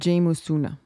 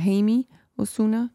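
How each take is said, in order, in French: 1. Le nom se prononce avec des sons à la française. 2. Le nom se prononce avec des sons à l'espagnole. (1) "je le prononce pas bien" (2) "je pense que ça se dirait"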